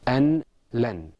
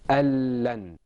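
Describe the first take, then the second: First: The n is pronounced separately before the l. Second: The n disappears into a doubled l sound. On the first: "Outside of the Quran and without idgham, this is pronounced" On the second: "With idgham, it's pronounced"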